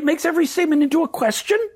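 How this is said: The voice rises at the end. The speaker is seeking agreement. "if I were to do this entire talk in uptalk"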